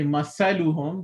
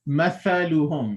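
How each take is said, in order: First: The middle consonant is an 's' sound. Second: The middle consonant is a 'th' sound. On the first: The word loses its meaning. The speaker calls it wrong. "that's wrong" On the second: The word has its proper meaning. The speaker calls it right. "Mathaluhum has a meaning"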